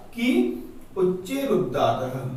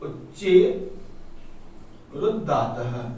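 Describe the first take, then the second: First: Said in the usual way. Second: "उच्चे", a pause, then "रुद्धातः" said separately and deliberately; word by word. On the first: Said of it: "उच्चे / रुद्धातः (repeated word by word)". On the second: Shown as a demonstration. Teacher spelling the sutra "उच्चे रुद्धातः" out for students, word by word. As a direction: break "उच्चे" and "रुद्धातः" apart for the class. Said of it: "कि उच्चे रुद्धातः (first said whole)".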